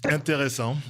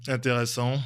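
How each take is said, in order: Both takes have the same delivery.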